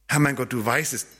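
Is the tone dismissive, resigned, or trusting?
resigned. It sounds resigned and without hope. It is impossible. "das geht nicht"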